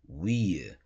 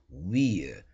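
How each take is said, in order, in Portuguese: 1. Soa como a palavra 'we'. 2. Soa como a palavra 'we'.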